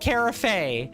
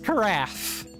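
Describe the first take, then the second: First: The word does not rhyme with giraffe. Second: The word rhymes with giraffe. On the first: The speaker calls it wrong. "It's not carafe" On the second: The speaker calls it right. "it is carafe. Like giraffe"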